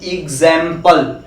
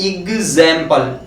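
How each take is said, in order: The two takes are said the same way.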